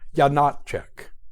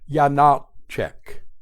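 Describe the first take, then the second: First: The name is said quickly and smoothly. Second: The name is said slowly and deliberately.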